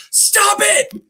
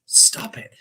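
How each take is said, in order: First: Sharp high shout; yelled stop it. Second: Breathy, voiceless stop it; whispered stop it. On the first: Doctor yells to stop the patient's story, high shout. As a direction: cut her off with a yell. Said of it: "he just yells at her". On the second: Doctor cuts off the patient's story, soft whisper. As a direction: hush it out under the breath. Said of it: "he just". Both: Retold or imitated.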